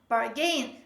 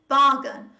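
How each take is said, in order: First: The stress is on the second syllable. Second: The stress is on the first syllable. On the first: The speaker calls it wrong. "They tend to stress the second part of this word" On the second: The speaker calls it right. "the stress is on the first syllable"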